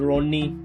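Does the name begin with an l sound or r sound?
r sound. The name begins with an r sound. "if someone name is Ronnie"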